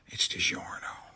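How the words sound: It is whispered.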